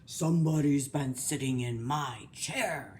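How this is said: It is said in a deep, gruff voice.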